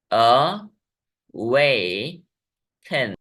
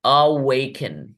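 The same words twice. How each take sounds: First: Extra slow demo. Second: Slow demo. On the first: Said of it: "तीन Wavell sounds वाला शब्द है". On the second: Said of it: "अगला शब्द है". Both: Shown as a demonstration.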